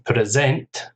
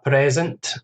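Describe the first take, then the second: First: The stress is on the second syllable. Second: The stress is on the first syllable. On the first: It is the verb. "to present is the verb" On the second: It is the noun. "a present is a noun"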